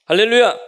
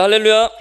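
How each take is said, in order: First: Loud high cry, falling at the end; second hallelujah shout. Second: Loud high greeting cry; hallelujah shout. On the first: Pastor repeats the greeting as a loud falling shout. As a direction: shout it back out with a falling close. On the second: Pastor greets the congregation with a loud shout. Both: Real, not acted. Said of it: "한번 인사해 보겠습니다".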